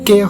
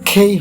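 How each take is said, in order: First: The first consonant is plain, without a puff of air. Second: The first consonant has a strong puff of air. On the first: The speaker calls it wrong. "এটা কে হবে না" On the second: The speaker calls it right. "খেই হবে"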